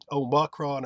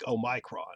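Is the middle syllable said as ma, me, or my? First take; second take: ma; my. First: The middle syllable sounds like 'ma'. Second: The middle syllable sounds like 'my'. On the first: The speaker calls it right. "ma or me is fine" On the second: The speaker calls it wrong. "The my I don't like"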